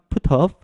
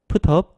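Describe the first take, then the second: First: Said quickly, the t softly linked into off. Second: Said quickly, the t softly linked into off.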